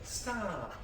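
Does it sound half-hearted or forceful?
half-hearted. It sounds soft and half-hearted.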